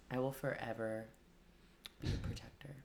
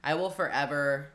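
First: Barbarian. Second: Said in the usual way. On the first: Pretend. Mock barbarian threat.

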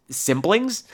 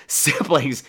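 First: "Siblings" raised at the end as a question; questioning repeat. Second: Said in the usual way. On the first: Real, not acted. Host checking a misread word, "Siblings" as a puzzled question. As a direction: query the word "Siblings" with a higher, rising tune. Queries own reading of the word.

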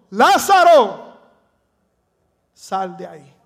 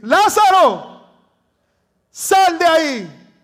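First: A loud first call, then dropping off; first take of Jesus calling Lazarus from the tomb. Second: Slow, high, full-voiced shout; Jesus shouting for Lazarus to come out of the tomb; loud exclamation. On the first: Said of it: "Debo decir". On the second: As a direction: cry it out as a command to the dead. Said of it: "porque está en exclamación". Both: Shown as a demonstration.

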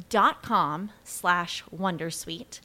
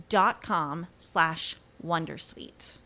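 The two takes are said the same way.

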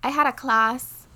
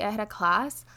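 First: Louder, drawn-out Bajan accent; strong Bajan accent. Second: Said in the usual way. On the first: Real, not acted. Telling co-host about class, strong Bajan accent slips out. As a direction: slip into broad Bajan, higher and slower. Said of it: "such a strong Bajan accent". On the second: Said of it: "I said that is such a strong Bajan accent".

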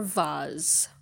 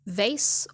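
First: Vase said as "vahz"; British VASE. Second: Vase said as "vayss"; VASE rhyming with base. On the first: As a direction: say vase with an AH and a buzzing Z. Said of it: "the correct pronunciation is vase". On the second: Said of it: "will pronounce it vase". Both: Shown as a demonstration.

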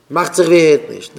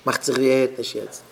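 First: Loud, forceful outburst; raised voice, hard attack; shouting. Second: Said in the usual way. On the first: Acted. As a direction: snap it out loudly. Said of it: "wie du schreist".

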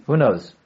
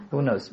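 First: Said in the usual way. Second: Much softer second ask, half to himself; teacher quietly re-asking the class; soft repeat. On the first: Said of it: "teacher asks the class". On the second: Shown as a demonstration. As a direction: ask again under your breath. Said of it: "teacher repeats the question".

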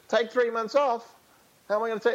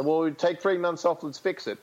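First: Incredulous player. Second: Said in the usual way. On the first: Retold or imitated. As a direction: balk at the idea in disbelief. Player balks at idea.

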